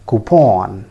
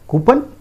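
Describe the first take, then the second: First: "coupon" said KOO-pon with a full o; correct coupon. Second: "Coupon" asked high, KOO-pun with a weak second vowel; wrong coupon. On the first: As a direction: give the o in "coupon" its full sound. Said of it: "It is pronounced as". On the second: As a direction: toss off "Coupon" as a rising question. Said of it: "many of us pronounce it in that way". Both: Shown as a demonstration.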